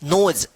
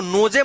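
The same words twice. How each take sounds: First: नोज with long o, silent final e; low, one-syllable नोज with nothing after the last consonant; correct pronunciation. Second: नोजे with the final e sounded; two syllables in नोजे, no-je; wrong pronunciation. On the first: Teacher correcting the misreading, correct pronunciation of नोज. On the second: Teacher warning learners off a misreading, mispronounced नोजे. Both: Shown as a demonstration. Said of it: "मत पढ़िएगा".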